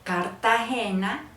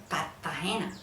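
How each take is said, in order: First: Said in the usual way. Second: "Cartagena" with the R dropped and T doubled; costeño doubled T. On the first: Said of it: "quitan la R". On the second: Shown as a demonstration. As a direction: say Cartagena as Cat-tagena, no R. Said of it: "ponen dos T y dicen".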